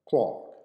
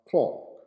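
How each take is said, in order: First: It is said with a British accent. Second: The same.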